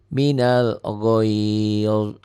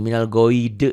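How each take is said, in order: First: The final consonant ends cleanly without vowel. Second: An extra e vowel follows the final consonant. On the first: The speaker calls it right. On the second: The speaker calls it wrong.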